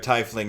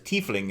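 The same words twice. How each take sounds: First: The first syllable sounds like 'tie'. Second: The first syllable sounds like 'tea'. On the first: Someone throws a tie at someone. "Tiefling is you throwing a tie at someone" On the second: Something comes from the teeth. "Tiefling is you you're from my teeth"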